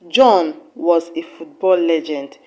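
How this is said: The word John carries the main stress. It was John, not another person, who was the legend. "with emphasis on the word John"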